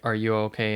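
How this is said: It is said in a mocking, sarcastic tone.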